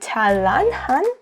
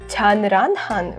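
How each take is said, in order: First: The first syllable ends with an l sound. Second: The first syllable ends with an n sound. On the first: The speaker calls it right. "why I say" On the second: The speaker calls it wrong. "it was supposed to be pronounced as"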